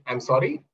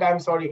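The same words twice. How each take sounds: First: It sounds displeased and threatening, like a challenge. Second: It sounds soft and genuinely apologetic. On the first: The speaker is annoyed and wants it repeated. "it almost sounded like a um, correction. I'm not too happy. It could even be a threat" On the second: The speaker feels they did something wrong. "He sounded apologetic"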